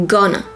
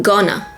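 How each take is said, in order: Both takes have the same delivery.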